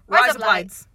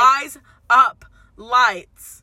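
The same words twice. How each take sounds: First: The phrase is said at a quick pace. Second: The phrase is said at a slower pace. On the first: The speaker calls it right. "Say rise up lights fast" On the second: The speaker calls it wrong. "No, fast"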